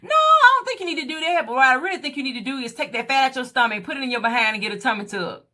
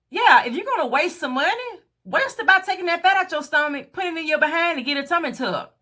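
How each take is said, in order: First: Friend's blunt advice. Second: Higher, sing-song mock of the friend; mocking repeat. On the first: Retold or imitated. Friend advising her to get a tummy tuck, quick and matter-of-fact. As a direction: rattle off the friend's suggestion. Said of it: "but she said". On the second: Repeating the friend's advice back to viewers, higher mocking sing-song. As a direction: parrot her words back with scorn.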